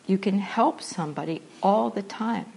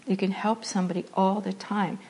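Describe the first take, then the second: No difference in how they are said.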